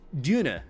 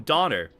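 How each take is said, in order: First: It is said with a German pronunciation. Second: It is said with an American pronunciation. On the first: This is how locals say it. The speaker calls it right. "But it's pronounced Duna" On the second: The speaker did not know the local pronunciation. The speaker calls it wrong. "I did not know how to pronounce it, so I'm like, oh"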